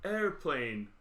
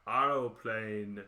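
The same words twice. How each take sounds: First: Said in the usual way. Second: Very slow, lower, rounded "aeroplane"; "aeroplane" smoothly stretched, extra vowel up front; foreign "aeroplane". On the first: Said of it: "It's like". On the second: Retold or imitated. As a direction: draw out every syllable of "aeroplane". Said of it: "Italian and French and Spanish".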